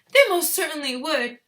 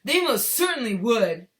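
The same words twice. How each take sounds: First: High, loud, indignant woman's voice; Missus Gloop. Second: Mister Gloop, indignant. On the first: Father's retort read in the mother's voice, indignant. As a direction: cry it shrilly indignant, pitched way up. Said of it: "I read it in Missus Gloop's voice". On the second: Father insisting people would buy it, indignant. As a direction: protest loudly, less high, voice put on. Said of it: "cried Mister Gloop indignantly". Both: A narrator's reading.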